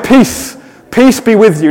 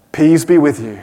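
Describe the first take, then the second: First: Higher, ringing peace, peace be with you; proclaiming greeting. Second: Low, understated peace be with you; flat low greeting. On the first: Pastor redoing Jesus' greeting properly, higher and ringing. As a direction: announce it with real power. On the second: Pastor's deliberately limp first try at Jesus' greeting, low. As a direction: say it low and offhand, almost throwaway. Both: Shown as a demonstration. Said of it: "No, of course he said".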